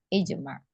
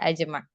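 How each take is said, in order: First: The word begins with an 'i' vowel. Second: The word begins with an 'a' vowel. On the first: The speaker calls it right. "ijma' tadi sahih" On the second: The speaker calls it wrong. "tidak ada ajma'"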